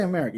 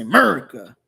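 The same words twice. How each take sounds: First: Said in the usual way. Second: America with the first vowel dropped, "MUR-ka"; America as 'Merica. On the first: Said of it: "don't say America". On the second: Shown as a demonstration. Streamer showing how patriots say it, America clipped to 'Merica. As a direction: slur America into a loud two-beat 'Merica. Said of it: "You say America".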